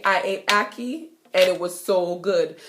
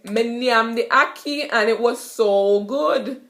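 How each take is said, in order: First: Said in the usual way. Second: "Me nyam the ackee" in Jamaican patois; easy Jamaican patois brag about food. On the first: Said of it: "So basically". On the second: Shown as a demonstration. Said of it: "you could say".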